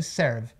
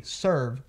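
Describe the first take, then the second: First: "serve" with an open E, Brazilian style; pronúncia errada. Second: "Serve" as SURV, curled R; som de UR. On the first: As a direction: mispronounce "serve" with E as in air. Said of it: "ao invés de serve". ("serve" com E aberto) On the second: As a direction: say "Serve" with UR, not open E. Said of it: "aquele som de U R aí". ("Serve" como surv, R enrolado) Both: Shown as a demonstration.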